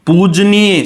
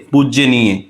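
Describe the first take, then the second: First: पूजनीय as "pooj-neey", long oo, j straight into n; correct form without ya. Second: पूजनीय as "pujjya-neey", a y slipped in before n; wrong extra ya. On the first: Teacher stressing the right word for students, पूजनीय as "pooj-neey". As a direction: say पूजनीय as "pooj-nee-ye", nothing between j and n. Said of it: "शब्द सही है". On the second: Teacher showing students the mistake, पूजनीय as "pujye-neey". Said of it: "ये गलत है". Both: Shown as a demonstration.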